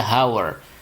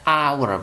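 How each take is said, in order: First: The word begins with an h sound. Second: The word begins with a vowel sound. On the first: The speaker calls it wrong. "bukan dibaca hour" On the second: The speaker calls it right. "tapi dibaca hour, bacanya A"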